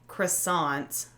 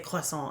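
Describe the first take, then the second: First: The word is said with an American pronunciation. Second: The word is said with a French-style pronunciation. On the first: "if we're saying it American" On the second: "I say croissant as well"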